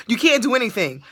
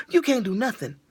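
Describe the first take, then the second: First: Said in the usual way. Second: Says "You can't do nothing" through a laugh, softer; a laughing first try at the rule, soft; laughing at herself. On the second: Shown as a demonstration. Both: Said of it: "That's what I had to break it down".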